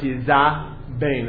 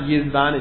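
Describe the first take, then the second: First: A full vowel follows the z sound. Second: The z runs straight into the next consonant. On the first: The speaker calls it right. "it's yizabain, ... a patach under the zayin" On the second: The speaker calls it wrong. "It's not yizvan"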